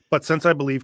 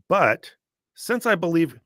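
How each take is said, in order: First: There is no pause after "But". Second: There is a pause after "But". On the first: The speaker calls it right. "The way I would read it is, It just rolls off the tongue better" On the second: The speaker calls it wrong. "it sounds awkward, and it definitely is awkward to actually put a comma there"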